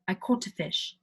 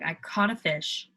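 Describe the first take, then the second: First: It is said in a British accent. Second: It is said in a non-British accent.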